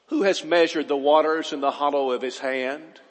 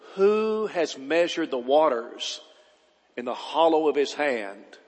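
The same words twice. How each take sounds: First: It is read at a normal speed. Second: It is read slowly and deliberately.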